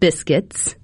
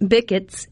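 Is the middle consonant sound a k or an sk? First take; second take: sk; k. First: The word is said with an sk sound. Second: The word is said with a plain k sound. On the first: The usual adult version of the word. "instead of biscuits" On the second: A small child's version of the word. "Bickets instead of biscuits"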